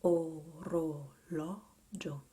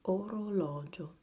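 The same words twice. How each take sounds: First: Orologio very slow, "oh... roh... LAW... jo"; slow repeat-after-me model. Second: Orologio loud, joined up as one word; connected repeat-after-me model. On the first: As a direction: draw out each syllable of orologio for learners, loudly. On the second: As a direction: say orologio connected, "oh-roh-LAW-jo", for learners. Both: Shown as a demonstration. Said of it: "I'll go first".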